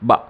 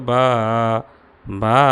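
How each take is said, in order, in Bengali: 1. স্বরটি ছোট রাখা হয়। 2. স্বরটি লম্বা করে টানা হয়। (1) "যেমনটা আমি বলার সময় বলেছি" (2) "এরকম বলা যাবে না"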